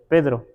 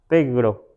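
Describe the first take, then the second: First: The middle consonant is a d sound. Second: The middle consonant is a g sound. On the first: "diga Pedro" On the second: "Pegro, así, ¿no?"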